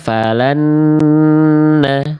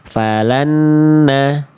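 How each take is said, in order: First: The nasal sound is held for two beats. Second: The nasal sound is cut short, not held. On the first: The speaker calls it right. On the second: The speaker calls it wrong. "idgham bigunanya nggak ditahan"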